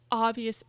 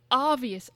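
No difference in how they are said.

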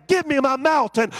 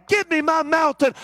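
No difference in how they are said.

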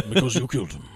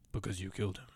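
First: Depp line reading. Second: Much lower, soft, mumbled Because you killed him; Depp line reading. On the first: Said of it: "one of my favorite line readings". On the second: Quoting Depp's line, mumbled low and quiet. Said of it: "one of my favorite line readings 'cause he goes". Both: Retold or imitated.

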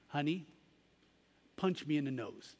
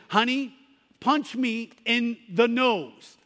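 First: Much softer, tender coaxing; a mother kneeling to reassure her boy; soft tender mom, lightly voiced; gentle mother. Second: Slow, higher, firmer insistence; mildly frustrated mother, slow and pressing; frustrated mom. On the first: Mother gently coaxes her son. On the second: Retold or imitated. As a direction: push the boy, a touch of impatience. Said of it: "she was a little bit frustrated".

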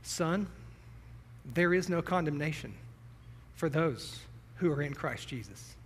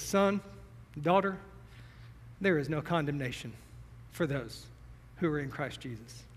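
First: Put-on tender old man. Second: Tender blessing. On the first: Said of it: "he put his arm on my shoulder and he said". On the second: Acted. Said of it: "puts my hand on your shoulder and says".

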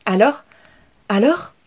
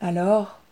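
First: Rising, louder eager questions; impatient family eager for news; eager excited. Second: Level and unhurried; Inès calmly teasing the waiting family; calm, poised. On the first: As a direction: pounce on her with curiosity. Family eagerly greets returning Inès. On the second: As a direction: answer the question calmly back. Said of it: "déclara posément". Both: Acted.

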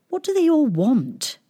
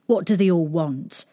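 First: High, puzzled princess; puzzled question. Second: Said in the usual way. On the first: Acted. Princess asks shepherd boy about her suitors, puzzled. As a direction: ask it high and bewildered, falling at the end.

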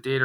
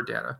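First: Data said as DAY-tuh; first "data" option, DAY-tuh; long-A pronunciation. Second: Data said as DAT-uh; second "data" option, DAT-uh; short-A pronunciation. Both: Shown as a demonstration. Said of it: "Is it data or data?".

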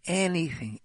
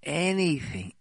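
No difference in how they are said.

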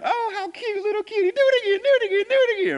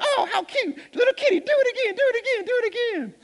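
First: Very high, loud, taunting hyena voice; mocking hyenas. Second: Very high, fast hyena voice with laughter through it; laughing hyenas. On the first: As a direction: tease the little cub like a cackling hyena. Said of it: "they just start to laugh". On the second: Acted. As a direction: cackle the taunt out in a rush. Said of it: "they're laughing like".

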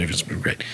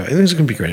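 First: Breathy under-the-breath whisper; whispered to himself. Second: Said in the usual way. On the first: Retold or imitated. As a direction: say it again to yourself, barely voiced. Repeats reassurance under his breath.

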